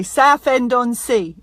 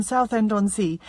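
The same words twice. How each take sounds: First: Southend-on-Sea said as "Saff-end-on-Sea", th turned to f; local Essex pronunciation. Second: Southend-on-Sea with a clear "south" and a full th; her own pronunciation. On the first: Retold or imitated. Showing her Facebook viewers how locals say it, a light Saffend imitation. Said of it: "down here they say". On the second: Shown as a demonstration. Telling her Facebook viewers how she says it at home, clear "south" with th. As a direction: say Southend-on-Sea the way it's said where she's from. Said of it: "That's how we say it where I come from".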